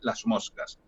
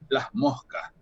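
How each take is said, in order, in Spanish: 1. La s es un sonido sibilante completo. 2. La s se convierte en un sonido aspirado, como una h. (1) "es una S con otra articulación" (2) "esa S se aspira"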